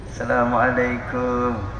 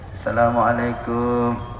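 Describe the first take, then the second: The two takes are said the same way.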